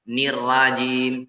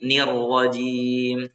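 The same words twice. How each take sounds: First: The R sound is light and thin. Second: The R sound is heavy and thick. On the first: The speaker calls it wrong. "Jangan nirra, nirrajim" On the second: The speaker calls it right. "Naroknya juga tebal"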